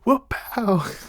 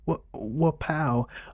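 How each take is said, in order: First: It is said loudly and boldly. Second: It is said quietly and hesitantly.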